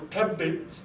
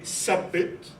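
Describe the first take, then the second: First: It begins with a hard t sound. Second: It begins with a hissing s sound. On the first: This form marks a social class. "tha goes into a plosive ta" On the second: This is a relaxed everyday form. "when people are easy in pronunciation, they would say sabbit"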